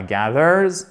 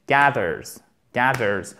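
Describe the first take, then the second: First: GATHERS with the second syllable drawn out; wrong stress. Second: GATHERS with a short, stressed first A; short A, first-syllable stress. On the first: Teacher showing learners what not to say, mispronounced. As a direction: say GATHERS wrongly, lingering on the ending. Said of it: "C'est pas gathers". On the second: Teacher modelling the correct word, stressed on the first syllable. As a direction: hit the start of GATHERS, short A. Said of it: "A court et on a notre accent tonique". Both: Shown as a demonstration.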